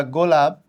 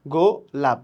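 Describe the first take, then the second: First: Said in the usual way. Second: গো লাপ with a clear gap between the two syllables; split into syllables. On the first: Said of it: "যখন তুমি বলবা গোলাপ". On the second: Shown as a demonstration. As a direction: say গো, pause, then লাপ. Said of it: "একটা গো, একটা লাপ". (গো আর লাপ আলাদা করে, মাঝে থেমে বলা)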